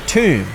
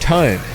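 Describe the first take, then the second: First: The vowel sounds like the one in too. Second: The vowel sounds like the one in toe. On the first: The speaker calls it wrong. "He pronounced it tomb" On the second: The speaker calls it right. "mispronounce the word tome"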